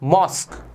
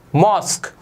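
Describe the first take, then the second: No difference in how they are said.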